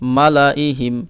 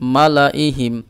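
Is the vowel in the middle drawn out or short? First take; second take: short; short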